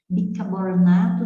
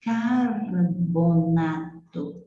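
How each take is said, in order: First: "Bicarbonato" said loud as "bicabornato"; wrong pronunciation. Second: "bicarbonato" slow, as bi-car-bo-na-to; correct pronunciation. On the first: Teacher reading out the misspelt word, mispronounced. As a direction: move the r in "Bicarbonato" to after the o. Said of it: "não é assim". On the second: Teacher correcting the word, slowly syllable by syllable. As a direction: separate each syllable, the r after "ca". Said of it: "não é assim, é". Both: Shown as a demonstration.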